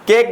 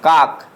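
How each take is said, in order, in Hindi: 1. स्वर 'ay' जैसा लगता है, जैसे say में। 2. स्वर 'ah' जैसा लगता है, जैसे father में। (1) "केक पढ़ेंगे" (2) "काक हमारा गलत हो जाएगा"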